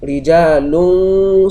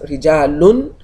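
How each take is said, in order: First: The final n is hidden and nasalized. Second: The final n is pronounced fully and clearly. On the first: The speaker calls it right. "I'm allowing my tongue to get close to the point of articulating the sword and not allowing it to touch" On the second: The speaker calls it wrong. "if I should pronounce it as rijalun, I'm pronouncing it with sukun"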